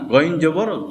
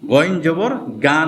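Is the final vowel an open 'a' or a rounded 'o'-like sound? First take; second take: rounded o; open a. First: The final vowel is a rounded 'o'-like sound. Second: The final vowel is an open 'a' sound. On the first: The speaker calls it right. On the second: The speaker calls it wrong.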